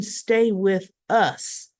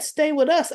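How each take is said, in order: First: "stay with us" drawn out slowly, falling on "us"; questioning emphasis. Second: "Stay with us" quoted higher, run together, rising on "us"; quoted emphasis. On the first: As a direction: query "stay with us" word by word, slowly. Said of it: "What do you mean". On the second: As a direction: say "Stay with us" as one phrase, lifting "us". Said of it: "the way she said". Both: Retold or imitated.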